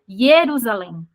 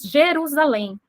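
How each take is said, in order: First: The name begins with a Y sound. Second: The name begins with a soft J sound. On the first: This is the Hebrew form of the name. "eles falam Jerusalém" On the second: This is the Portuguese form of the name. "Nós falamos Jerusalém"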